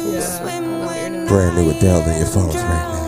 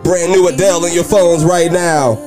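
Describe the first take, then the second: First: It is said in a softer, gentler voice. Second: It is said in a louder, fuller voice. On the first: The speaker calls it right. "This is a soft talk" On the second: The speaker calls it wrong. "I should have said that softer"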